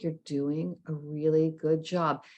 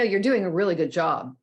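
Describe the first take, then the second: First: It is said in a soft, gentle tone. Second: It is said in a plain, firm tone. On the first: The listener can take in the praise. The speaker calls it right. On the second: The listener will not feel the praise. The speaker calls it wrong.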